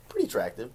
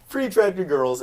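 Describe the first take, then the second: First: Said in the usual way. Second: Put-on "Pretty attractive girls" said high through a laugh. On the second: Shown as a demonstration. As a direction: repeat it with a laugh.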